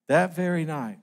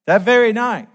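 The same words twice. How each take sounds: First: Said in the usual way. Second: That very night, shouted high and loud; loud proclamation. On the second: Real, not acted. Preacher proclaiming the king's doom to the congregation, loud and high. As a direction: ring out "That very night" like a verdict. Repeated for emphasis.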